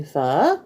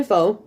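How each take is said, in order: First: "pho" rising at the end like a question; slow "pho" going up at the end. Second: "pho" said with a falling tone; pho one way. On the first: Teaching the Vietnamese way, "pho" slow and rising. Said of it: "say it like a question, where you go up at the end". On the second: Explaining Vietnamese food, "pho" with a falling end. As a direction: say "pho" flat then dropping at the end. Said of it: "some people say pho". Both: Shown as a demonstration.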